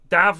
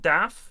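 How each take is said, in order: First: The name ends with a voiced v sound. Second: The name ends with a voiceless f sound. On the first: The speaker calls it right. "You see Dav not" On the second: The speaker calls it wrong. "not Daff"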